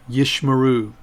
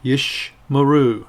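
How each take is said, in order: First: Said in the usual way. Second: "Yish Maru" slow, with a gap after Yish; pronounced for repetition. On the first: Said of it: "And one more time". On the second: Shown as a demonstration. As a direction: model "Yish Maru" slowly, falling at the end. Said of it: "pronounce them after me".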